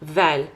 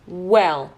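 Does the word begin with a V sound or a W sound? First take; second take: V; W. First: It begins with a V sound, teeth on lip. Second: It begins with a W sound, rounded lips. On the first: The speaker calls it wrong. "Not well" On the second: The speaker calls it right. "Diş değmiyor hiçbir yere çünkü bu sexy sound'umuz"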